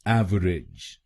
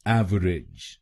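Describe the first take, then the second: First: It is said with three syllables, av-er-ij. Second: It is said with three syllables, av-er-ij.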